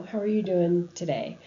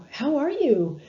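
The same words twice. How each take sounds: First: Calm, even, gentle greeting; toned down. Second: Bright, high, louder peppy greeting; real chipper. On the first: Greeting a dying patient in a toned-down, sensitive way. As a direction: ask it simply and sensitively. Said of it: "toning it down a little bit". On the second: Nurse walking into a dying patient's room, overly chipper greeting. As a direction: breeze in overly cheerful. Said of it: "instead of kind of a real chipper". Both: Shown as a demonstration.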